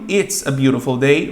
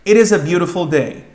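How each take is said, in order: First: It is contracted into one syllable. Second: It is said as two full words.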